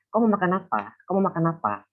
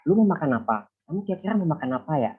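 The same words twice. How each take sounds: First: High Sumatran intonation, quick and falling; Sumatran accent. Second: Everyday Javanese-Indonesian accent. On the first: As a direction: say it like a Sumatran, pitched up. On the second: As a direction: say it like a Java speaker, only slightly lifted. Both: Shown as a demonstration. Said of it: "a bit of differences in intonation".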